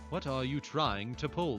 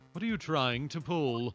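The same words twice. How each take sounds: First: The voice is pitched deeper, with the intended inflection. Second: The voice is pitched higher, lacking the deep inflection. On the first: The speaker calls it right. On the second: The speaker calls it wrong.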